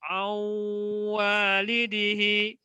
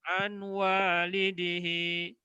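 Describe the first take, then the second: First: The n merges into w with nasal hum. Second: A clear n is heard before the w. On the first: The speaker calls it right. "Yang betul adalah" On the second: The speaker calls it wrong. "salah kalau dibaca an walidihi"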